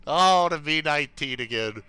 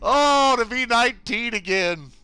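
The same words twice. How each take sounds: First: Said in the usual way. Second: Wistful. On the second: Shown as a demonstration.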